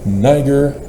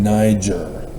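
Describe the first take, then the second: First: The g sounds hard, as in go. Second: The g sounds soft, like a j. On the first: The speaker calls it right. "It's a G. G" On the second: The speaker calls it wrong. "You probably hear a lot of people pronounce it"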